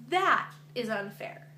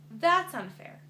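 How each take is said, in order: First: Said in the usual way. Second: That's unfair said higher and louder; indignant repeat with "unfair" punched; emphatic restatement. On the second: Real, not acted. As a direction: press hard on "unfair" the second time.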